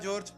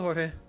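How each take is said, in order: First: The name is said with English sounds. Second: The name is said with Spanish sounds. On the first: "I straight up pronounce it George every time I call him" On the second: "here I am calling you Jorge"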